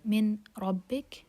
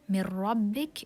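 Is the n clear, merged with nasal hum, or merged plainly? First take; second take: clear; plain merge. First: The n is pronounced clearly before the r. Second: The n merges into r without nasal hum. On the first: The speaker calls it wrong. "Ra is among the merging letters. So Min Rabbik is wrong" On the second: The speaker calls it right. "it's merging without ghunna"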